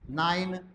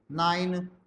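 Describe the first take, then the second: No difference in how they are said.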